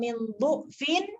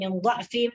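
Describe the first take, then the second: First: The word's first vowel is a 'u' sound. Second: The word's first vowel is an 'a' sound. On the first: "boleh dibaca dengan baris hadapan, yaitu baris dhamma" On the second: "boleh dibaca dengan baris atas"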